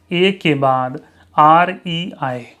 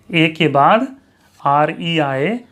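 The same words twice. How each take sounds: The two takes are said the same way.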